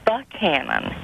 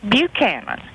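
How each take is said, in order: First: The first syllable sounds like 'buck'. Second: The first syllable sounds like 'byoo'. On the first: This is the true Scottish pronunciation. The speaker calls it right. "His name is Buchanan" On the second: This is the common anglicized pronunciation. The speaker calls it wrong. "why do they pronounce his name Buchanan?"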